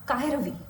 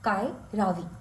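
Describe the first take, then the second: First: The first vowel of ravi is short. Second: The first vowel of ravi is long.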